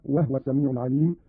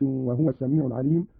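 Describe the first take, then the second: First: No vowel after the h in "وهو"; silent vowel on ha. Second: Said in the usual way. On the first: Shown as a demonstration. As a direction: say "وهو" as wahwa. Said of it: "بإسكان الهاء هكذا". (إسكان الهاء في "وهو")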